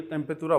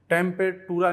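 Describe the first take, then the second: First: टेम्पेतुरा with a dental त as the correct form; right pronunciation. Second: टेम्पेटुरा with a hard retroflex ट in the middle; टेम्पेटुरा with a retroflex ट as the mistake to avoid; wrong pronunciation. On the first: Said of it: "टेम्पेतुरा बोलेंगे". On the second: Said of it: "टेम्पेटुरा नहीं बोलेंगे". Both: Shown as a demonstration.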